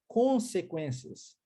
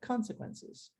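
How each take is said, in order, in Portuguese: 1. A primeira vogal soa como 'oh', ao estilo português. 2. A primeira vogal soa como 'ah', ao estilo inglês. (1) "Se você seguir o padrão linguístico do português, você lerá consequências" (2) "o O muitas vezes tem um som de A"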